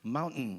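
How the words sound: It is said with a softened American t. "이렇게 하는 것처럼"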